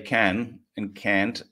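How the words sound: It is said in an American accent. "Americans say can and can't"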